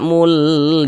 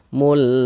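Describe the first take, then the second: First: The u vowel is drawn out long. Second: The u vowel is kept short. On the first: The speaker calls it wrong. "Jangan dibaca mul, dipanjangkan itu jangan salah" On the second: The speaker calls it right. "pendek saja"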